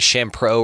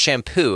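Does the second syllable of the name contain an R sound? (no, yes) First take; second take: yes; no. First: The second syllable has an added R sound. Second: The second syllable has no R sound. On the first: The speaker calls it wrong. "I got added an R that wasn't even supposed to be in there" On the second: The speaker calls it right. "it's pronounced shampoo"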